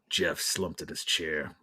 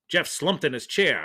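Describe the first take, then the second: First: It is said in a Batman-like voice. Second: It is said in a pulp detective voice.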